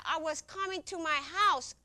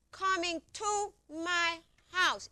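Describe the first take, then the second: First: Higher, protesting explanation; retold protest at an even pace; insistent protest. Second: Higher, drawn out word by word; slow, emphatic repeat. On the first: Telling questioners she was only coming home, insistent. Defending herself against questioners' blame. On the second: Retold or imitated. Telling questioners she was only coming home, slow and emphatic. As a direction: spell it out slowly, insistently.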